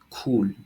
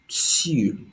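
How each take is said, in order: First: The name is said like 'cool', an oo vowel. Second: The name is said like 'seal', an ee vowel. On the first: This is the accepted pronunciation. "ça se prononce comme cool" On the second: This is how the speaker always said it. "Moi j'ai toujours dit Seal"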